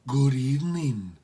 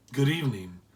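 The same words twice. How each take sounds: First: Slow, lightly voiced housekeeper greeting; a hint of a stately housekeeper; matronly woman. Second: Said in the usual way. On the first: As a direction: greet the caller formally.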